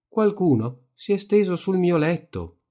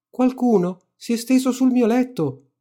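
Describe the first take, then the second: First: The voice is medium in depth. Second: The voice is small, high and shouted. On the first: The middle-sized character is speaking. "disse con la sua voce grossa alla metà" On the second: The smallest character is speaking. "gridò con la sua voce piccola piccola"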